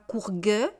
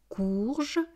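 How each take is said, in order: First: The word ends with a hard g sound. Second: The word ends with a soft zh sound. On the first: The speaker calls it wrong. "On ne dit pas courgue" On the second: The speaker calls it right. "on dit je, une courge"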